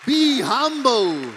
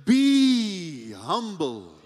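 First: "Be humble" louder and drawn out; slow and loud. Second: Slow, drawn-out and grave; slow solemn. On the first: Preacher urging the congregation, loud and slow. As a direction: press it home, loud and slow. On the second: Preacher to congregation, slow and solemn. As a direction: let each word sink in slowly. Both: Shown as a demonstration.

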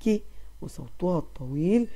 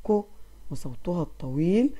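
No difference in how they are said.

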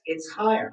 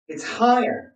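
First: Said in the usual way. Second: "higher" said in a raised, thin chest voice. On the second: Shown as a demonstration. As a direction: lift "higher" up, breath high in the chest. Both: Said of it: "I've lost all of those lower notes".

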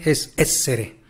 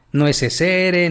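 First: Essere with the stress on the first E, ESS-ere; right stress on essere. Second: Essere said with the stress misplaced off the first E; wrong stress on essere. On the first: Teacher gives a student the correct stress of essere. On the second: Teacher shows a student the wrong way to stress essere. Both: Shown as a demonstration. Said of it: "Como si tuviera el acento en la primera E".

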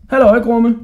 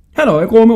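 First: High, loud call. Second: Loud, high hail; calling out. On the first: Hodja hailing the passing jailer, called out high and loud. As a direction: shout a hello along the passage. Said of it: "råbte Hodja". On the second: Hodja back in the other cell, calling out high and loud. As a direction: holler a greeting to the jailer. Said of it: "råbte han". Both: A narrator's reading.

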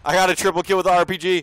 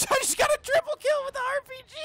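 First: Loud, fast gamer boast; excited brag. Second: High, fast triumphant yell; excited shout. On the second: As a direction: scream the triple kill. Excited gaming brag. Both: Real, not acted.

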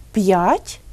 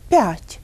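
First: П'ять with a hard P, then a clear y-glide; hard consonant. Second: П'ять with a softened P, no separate glide; half-soft consonant. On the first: Teacher offers listeners the correct form, hard P in П'ять. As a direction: say П'ять as p-yat', slowly. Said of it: "як же ми вимовляємо ці слова". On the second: Teacher offers the wrong option, soft P in п'ять. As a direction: say п'ять slowly as pyat', P palatalised. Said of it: "якщо вимовляти ці звуки напівм'яко". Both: Shown as a demonstration.

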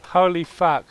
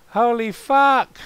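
First: Raised, louder exclamation; amazed exclamation. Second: High, loud, drawn-out exclamation; escalated shocked shout. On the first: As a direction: exclaim it with a first jolt of shock. Reacts to yelling, then escalates. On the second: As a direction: stretch it out into a yell. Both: Pretend.

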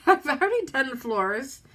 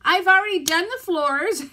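First: Teary laugh then the words; a rueful laugh as she cries; laughing through tears. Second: Higher and louder tearful cry. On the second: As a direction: wail it through tears. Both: Real, not acted. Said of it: "sit here and cry on camera".

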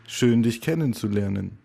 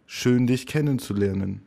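The two takes are said the same way.

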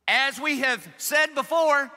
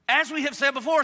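First: Higher, louder, slow proclamation; "As we have said before" slow, high and stressed; emphatic reading. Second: High, loud reread with a lift on before; "As we have said before" rising on before; repeated reading. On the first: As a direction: read it out slowly like a stern apostle. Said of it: "reading Paul sternly". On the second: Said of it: "when did you say this before, Paul?". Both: Shown as a demonstration.

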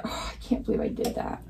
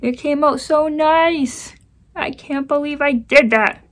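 First: Breathy half-voiced disbelief; whispered self-reproach; dismayed under breath. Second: High, loud, slow anguished lament; real frustration, pitched high and loud; frustrated wail. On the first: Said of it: "I'm so mad at myself". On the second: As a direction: wail at your own mistake. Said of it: "Oh, I'm so mad". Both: Real, not acted.

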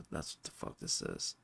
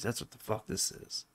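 First: "That's what the fuck this is" whispered under the breath, much softer and lower; whispered repeat. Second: Said in the usual way. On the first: Real, not acted. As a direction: breathe it to yourself in disgust. Repeats the line under his breath.

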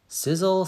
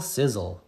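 First: Higher, crackly sizzle call; a bright high sizzle; sizzling pan. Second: Low fading echo of sizzle; settling sizzle. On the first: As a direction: hiss it like eggs hitting the pan. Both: Pretend. Onomatopoeia in kids' story.

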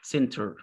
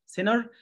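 First: British center, said sen-ter with a clear t; teacher's British center; British accent. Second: American center, said sin-er with the t dropped and an r-coloured end; teacher's American center; American accent. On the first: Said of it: "in a British accent, we say". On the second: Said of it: "In American accent, we say". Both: Shown as a demonstration.

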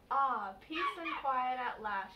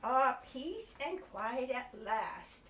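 First: Slow relieved sigh. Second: Slow, sighed relief; slow weary sigh. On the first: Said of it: "she said". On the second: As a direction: breathe it out like a tired mother at last. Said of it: "sighed Missus Rabbit". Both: Acted.

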